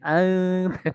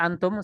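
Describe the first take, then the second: First: The word is drawn out with careful nasal sounds. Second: The word is said quickly in ordinary speech. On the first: It sounds overdone in everyday talk. The speaker calls it wrong. "apa kata orang lebay sekali" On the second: It is ordinary everyday speech. The speaker calls it right. "menyalahi kaidah tajwid"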